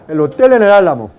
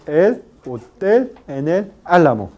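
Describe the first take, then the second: First: It is spoken fast with the syllables linked. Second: It is spoken slowly with the syllables apart. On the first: "si en el habla rápida" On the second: "En el habla lenta"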